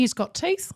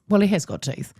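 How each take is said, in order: First: Higher, rising "he's got teeth", like a half-question; light rising aside. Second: "has" leaned on firmly, with a falling "Well"; stress on has. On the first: Shown as a demonstration. Telling the listener about her dog, a high rising "he's got teeth". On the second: Real, not acted. Setting the record straight about her dog, "has" stressed firmly. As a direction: insist that "he has got teeth" with weight on "has".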